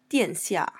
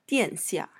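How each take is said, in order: No difference in how they are said.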